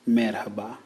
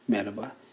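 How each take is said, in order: First: The h sound in the middle is pronounced. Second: The h sound in the middle is dropped.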